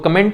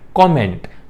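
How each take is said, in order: First: The first vowel is a short 'uh' sound. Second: The first vowel is an open 'aw' sound. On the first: The speaker calls it wrong. "तो कमेंट नहीं" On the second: The speaker calls it right. "कॉ, कॉ ... मेंट"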